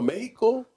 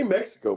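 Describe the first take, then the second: First: It is said with a Spanish accent. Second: It is said with a plain English accent. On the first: The speaker calls it wrong. "pronounce r- words with a Spanish accent" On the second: The speaker calls it right. "say Mexico, bro"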